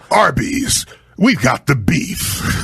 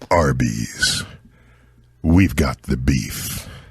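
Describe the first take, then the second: First: It is said in a really angry voice. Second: It is said in a deep, sincere voice.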